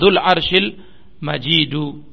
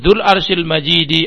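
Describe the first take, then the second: First: The last word ends with a u vowel. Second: The last word ends with an i vowel. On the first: "dengan dhamma" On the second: "dengan al-kasr"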